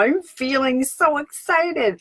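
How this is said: It is said in a high-pitched voice.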